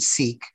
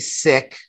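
First: The word has the commonly familiar pronunciation. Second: The word has the speaker's own pronunciation. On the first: "most of your listeners would be more familiar with the term Sikh or the pronunciation" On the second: "I say Sikh"

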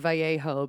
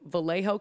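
First: The double L sounds like a Y. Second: The double L sounds like an L. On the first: The speaker calls it wrong. "I have to remember not to say Vallejo because it's a Spanish name and it's got fucking two L's" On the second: The speaker calls it right. "that's not how they pronounce it in Vallejo"

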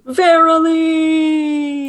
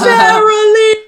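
First: It is said more softly. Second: It is said loudly.

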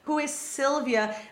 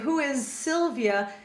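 First: The s of 'is' has no voicing. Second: The s of 'is' starts voiced.

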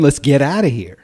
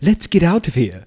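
First: It is spoken in a plain American accent. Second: It is spoken in a put-on British accent. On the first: This is how the speaker thinks a British person would really talk in a panic. The speaker calls it right. "They're going to say, hey man" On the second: This is how a British accent would sound in a panic. The speaker calls it wrong. "they're not going to say"

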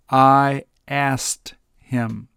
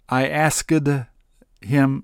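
First: 'Asked' is reduced to end in a plain t. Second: Every sound at the end of 'asked' is spelled out. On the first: The speaker calls it right. "so it's simply pronounced A-S-T" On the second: The speaker calls it wrong. "is very awkward to say, and it's very difficult to say"

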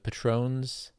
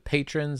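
First: The name is said with a French pronunciation. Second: The name is said with an American pronunciation. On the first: The family adopted a more highbrow version of the name. "switch the French pronunciation" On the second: The family's original, local way of saying the name. "very Wisconsin pronunciations of their last name"

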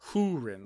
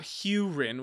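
First: The first syllable sounds like 'hoo'. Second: The first syllable sounds like 'hew'. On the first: The speaker calls it right. "it is H-O-O... like an owl" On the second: The speaker calls it wrong. "it's not like H-E-W"

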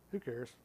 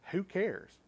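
First: It is said dismissively, with indifference. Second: It is asked as a sincere, real question.

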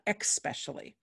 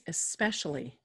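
First: It begins with an 'ex' sound. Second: It begins with a plain 'es' sound. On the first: The speaker calls it wrong. "not expecially. People always threw X's in" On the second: The speaker calls it right. "The word is especially"

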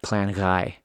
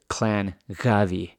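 First: The name is said in a shortened form. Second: The name is said in its full form. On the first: "if you just do it short" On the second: "it goes to Clan Gavi"

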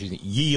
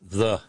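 First: The word begins with a y sound. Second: The word begins with a th sound. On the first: The speaker calls it wrong. "No, it's the" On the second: The speaker calls it right. "That Y is actually a hard TH"

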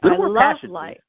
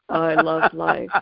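First: It is said in a bright, smiling tone. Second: It is said in a flat, solemn tone. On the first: The speaker calls it right. "let's redo that with a big smile on your face" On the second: The speaker calls it wrong. "they have the most solemn look on their face"

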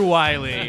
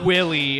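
First: The first vowel is a long 'eye' sound. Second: The first vowel is a short 'ih' sound. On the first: The speaker calls it right. "It's Dr. Wily" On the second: The speaker calls it wrong. "It's not Dr. Willy"

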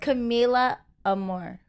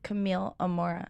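First: The first name ends in an 'ah' sound. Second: The first name ends in an 'eel' sound. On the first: The speaker calls it wrong. "everybody says Camila Amor" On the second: The speaker calls it right. "It's Camille Amora"

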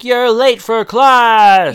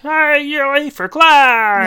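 First: It is said in a plain voice. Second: It is said in a throaty, high-pitched voice.

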